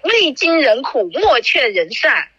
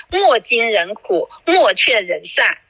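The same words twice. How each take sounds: First: 未经人苦 said slowly, 未 clearly fixed and raised; slow corrected quote opening on 未经人苦; corrected saying. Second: 莫经人苦 said slowly with 莫 instead of 未; slow, deliberate first attempt starting 莫经人苦; misquoted saying. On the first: (慢慢纠正为“未经人苦”) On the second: (慢慢地说成“莫经人苦”) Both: Shown as a demonstration.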